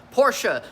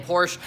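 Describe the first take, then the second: First: "Porsche" as POR-shuh with the final vowel, stressed first syllable; two-syllable Porsche. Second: "Porsche" as a single syllable, porsh, no final vowel; one-syllable Porsche. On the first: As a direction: land on the ending vowel: por-sha. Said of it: "it's two syllables". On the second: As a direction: clip the end off: just porsh. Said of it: "I'm sounding like I'm saying Porsche". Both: Shown as a demonstration.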